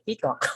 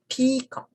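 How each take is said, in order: First: The stress is on the second syllable. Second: The stress is on the first syllable. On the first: The speaker calls it wrong. "Oftentimes we just say peacock" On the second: The speaker calls it right. "more particular on the correct pronunciation of the words, we say peacock"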